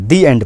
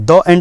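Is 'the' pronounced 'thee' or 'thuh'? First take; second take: thee; thuh. First: 'The' is said with a long ee vowel. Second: 'The' is said with a short uh vowel. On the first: The speaker calls it right. "दी एंड पढ़ेंगे" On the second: The speaker calls it wrong. "यहाँ पर दो एंड नहीं पढ़ेंगे"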